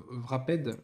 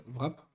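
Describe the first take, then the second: First: "Wrapped" with the ending sounded out as a second syllable; unsure pronunciation. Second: "Wrap" as one short syllable; alternative pronunciation. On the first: Vlogger unsure of the English word, unsure pronunciation. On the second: Vlogger tries the other way to say it, alternative pronunciation. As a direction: say "Wrap" with no -ped ending. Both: Shown as a demonstration. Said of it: "je sais pas comment on dit".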